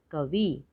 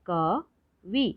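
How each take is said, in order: First: Said in the usual way. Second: कवि split slowly as क, वि; syllable by syllable. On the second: Shown as a demonstration. Teacher sounding out कवि for learners, syllable by syllable. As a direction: pause between the syllables of कवि. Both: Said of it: "तो शब्द पढ़ते हैं".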